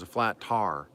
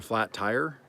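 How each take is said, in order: First: Tire sounds like tar, Oklahoma style. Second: Tire is said with a full 'eye' vowel.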